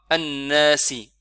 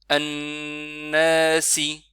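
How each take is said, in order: First: The n sound is short. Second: The n sound is held longer. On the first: The speaker calls it wrong. "on fait pas Annasi" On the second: The speaker calls it right. "il faut absolument rester un peu plus longtemps sur Noun avec Shadda"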